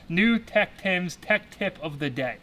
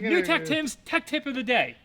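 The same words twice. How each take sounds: First: The phrase is spoken slowly and carefully. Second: The phrase is spoken quickly in one go. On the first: "I have to say that very slow" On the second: "Can you say that faster?"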